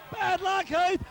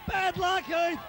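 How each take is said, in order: Both takes have the same delivery.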